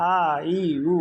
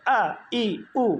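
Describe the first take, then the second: First: "আ, ই, উ" lengthened and run smoothly together; wrong drawn-out vowels. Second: Sudden, higher-pitched "আ, ই, উ", each cut short; abrupt short vowels. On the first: Teacher shows students the wrong reading, drawn-out vowels. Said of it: "এইভাবে পড়লে হবে না". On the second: Teacher gives the corrected reading, abrupt vowels. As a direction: hit "আ, ই, উ" sharply and stop. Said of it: "হঠাৎ করে উচ্চারণ করতে হবে". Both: Shown as a demonstration.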